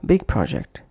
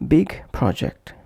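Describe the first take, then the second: First: BIG PROJECT run together without a break; linked words. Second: BIG and PROJECT said apart, each in full; short break after "big" before "project"; separate words. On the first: Teacher showing word connection, linked words. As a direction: push "big" straight into "project". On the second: Teacher showing word connection, separate words. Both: Shown as a demonstration. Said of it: "pronounced as".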